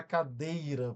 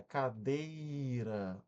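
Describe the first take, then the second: First: Said in the usual way. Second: Cadeira said very slowly with DEI held long; stressed syllable drawn out. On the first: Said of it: "pronunciada com mais lentidão". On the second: Shown as a demonstration. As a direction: stretch the middle syllable of cadeira. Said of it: "foi pronunciado com mais lentidão". ("cadeira" com o DEI bem alongado)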